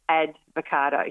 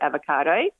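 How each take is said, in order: First: A d sound comes before the v. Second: No d sound comes before the v. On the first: The speaker calls it wrong. "who said advocado" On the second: The speaker calls it right. "instead of avocado"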